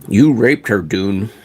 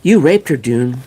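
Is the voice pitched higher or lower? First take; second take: lower; higher. First: The line is spoken in a lower voice. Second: The line is spoken in a higher voice. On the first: The speaker calls it wrong. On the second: The speaker calls it right.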